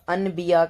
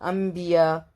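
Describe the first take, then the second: First: The nasal before the b is an n sound. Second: The nasal before the b is an m sound. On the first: The speaker calls it wrong. "अनबिया करके नहीं बोलते हैं" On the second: The speaker calls it right. "हम बोलते हैं अंबिया"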